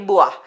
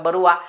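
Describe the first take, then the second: First: The name is said without an r sound. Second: The name is said with an r sound. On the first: The speaker calls it right. "तिचं proper pronunciation आहे" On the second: The speaker calls it wrong. "अनेक जण तिला बरुआ अशा वेगवेगळ्या नावाने तिला हे करतात"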